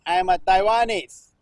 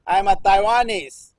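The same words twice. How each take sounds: The two takes are said the same way.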